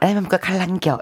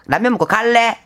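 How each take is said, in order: First: It is said in a softer Daegu style. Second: It is said in a stronger Busan style.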